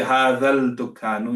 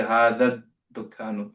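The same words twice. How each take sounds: First: هذا الدكان with a sounded l, "haadhal-dukaanu"; wrong, l pronounced. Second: هذا الدكان as "haadhad-dukaanu"; silent l, doubled d. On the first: Teacher shows students what not to say, l sounded before d. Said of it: "You don't say". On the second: Teacher corrects students on shamsi letters, silent l with doubled d. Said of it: "you say". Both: Shown as a demonstration.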